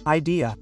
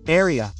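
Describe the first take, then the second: First: Said in the usual way. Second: "Area" for idea, D softened to an R tap; colloquial tapped D. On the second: Shown as a demonstration. Teacher contrasts it for learners, "Area" with a tapped R. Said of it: "Is also usually said like that".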